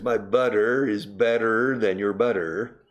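It is spoken in a Texan accent. "And in Texas"

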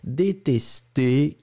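The pitch falls at the end of the word. "détesté qui descend"

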